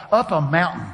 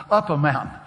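No difference in how they are said.

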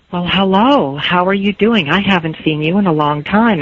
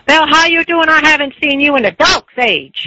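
First: Said in the usual way. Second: Put-on harsh, high-pitched hearty holler with a Dutch accent; yelling neighbor women. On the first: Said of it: "instead of saying". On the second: Neighbor woman greeting someone long unseen, sounding like she's yelling. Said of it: "I thought were yelling at me".

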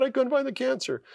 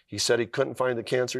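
First: Much higher, echoing the doctor's words in wonder; much higher amazed repeat of the doctor's words. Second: Said in the usual way. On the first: Retold or imitated. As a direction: lift it way up, stunned it's coming true.

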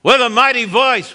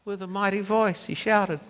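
First: High and loud, booming read; mighty voice. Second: Softer and quicker; softened read. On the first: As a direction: proclaim it. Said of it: "I'll read it to you". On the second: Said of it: "wait, no". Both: Shown as a demonstration.

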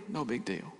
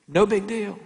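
First: No big deal, much softer and falling; muttered brush-off. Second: High, airy no big deal; breezy brush-off. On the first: Preacher echoing the shrug under his breath, soft. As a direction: let it fade out, dismissive. Mimicking someone brushing off hurt. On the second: Preacher mimicking someone shrugging off hurt, breezy. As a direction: toss it off like it's nothing. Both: Retold or imitated.

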